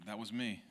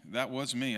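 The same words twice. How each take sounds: First: Said in the usual way. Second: Louder, driving the words home; louder emphatic repeat. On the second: Real, not acted. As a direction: push it out louder to the crowd.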